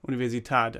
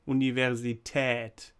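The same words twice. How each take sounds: First: The last vowel is a plain open 'ah' sound. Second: The last vowel is an 'eh'-like umlaut sound. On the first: "without the dots, just a normal German a" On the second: "the ä"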